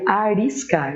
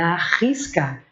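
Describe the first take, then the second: First: The middle r is a light single tap. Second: The middle r is a strong throaty sound. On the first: The speaker calls it wrong. "Se eu colocasse um só, ficaria arriscar" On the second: The speaker calls it right. "Então é arriscar, que está no meio de duas vogais, tem que pôr dois R's"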